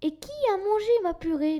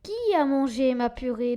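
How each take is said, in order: First: It is said in a small baby bear voice. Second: It is said in a deep papa bear voice.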